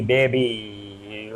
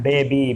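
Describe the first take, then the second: First: "baby" softer, lower, last vowel stretched long; drawn-out joking "baby". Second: Said in the usual way. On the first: Pretend. Teacher jokes it's not that kind of baby, drawn-out "baby". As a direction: let "baby" trail out long and low, in jest. वो वाली नहीं.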